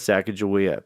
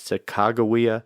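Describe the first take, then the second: First: The middle consonant is a soft G sound. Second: The middle consonant is a hard G sound. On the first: This is how it is said in the American South. "that's what I'm comfortable with" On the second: This is the most widely accepted form today. "like a hard G"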